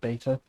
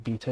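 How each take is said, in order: First: The word is said with an American pronunciation. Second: The word is said with a British pronunciation. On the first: "instead of beta" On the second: "most sort of British people will say beta"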